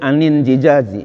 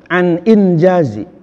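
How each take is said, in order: First: An extra vowel is inserted after 'an'. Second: The words join with no added vowel. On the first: The speaker calls it wrong. "Tidak boleh anin jijazi" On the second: The speaker calls it right. "dibacanya an injazi"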